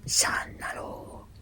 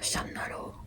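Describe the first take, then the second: First: The sounds in the word are drawn out longer. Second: The sounds in the word are kept short.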